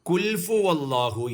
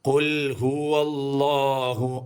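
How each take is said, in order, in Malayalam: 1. ആദ്യ വാക്കിനു ശേഷം f ശബ്ദം വരുന്നു. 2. ആദ്യ വാക്കിനു ശേഷം h ശബ്ദം വരുന്നു. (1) "പലരും തെറ്റിപ്പോവാറുള്ള ഒരു ഭാഗമാണ്" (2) "അങ്ങനെ തന്നെ ഓതണം"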